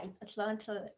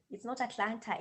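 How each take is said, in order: First: Atlanta attempted the American way, as friends correct it; imitated American pronunciation. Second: Atlanta said her own way, the version being corrected; friends' correction. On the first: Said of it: "working on my pronunciation". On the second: Retold or imitated. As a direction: say "Atlanta" with every T sounded, as the mistake. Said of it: "my friends will be like".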